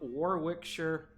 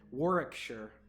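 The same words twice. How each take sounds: First: It is said with an American pronunciation. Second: It is said with a British pronunciation. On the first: The speaker calls it wrong. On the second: The speaker calls it right.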